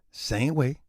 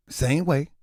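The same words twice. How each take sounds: The two takes are said the same way.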